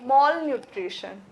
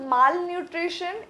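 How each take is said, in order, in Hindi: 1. पहले अक्षर में गोल 'aw' स्वर है। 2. पहले अक्षर में खुला 'ah' स्वर है। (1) "it is" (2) "it is नॉट"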